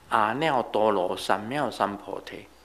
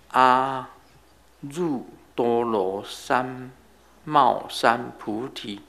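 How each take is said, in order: First: It is pronounced with Taiwanese sounds. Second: It is pronounced with Mandarin sounds. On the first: "台湾人讲" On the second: "我国语发音呢"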